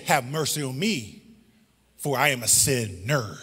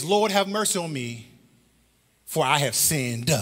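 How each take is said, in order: First: Low, soft plea landing on "sinner"; stress on sinner. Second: "sinned" set apart at the end; measured quote landing on "sinned"; stress on sinned. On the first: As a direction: linger on both halves of "sinner". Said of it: "He said". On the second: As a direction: lean on the final word "sinned". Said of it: "What he did not say". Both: Shown as a demonstration.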